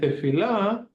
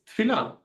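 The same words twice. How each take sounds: First: Every syllable is pronounced fully, including the first vowel. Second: The first vowel is dropped, running the consonants together. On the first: "You can also say" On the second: "the way that it comes out"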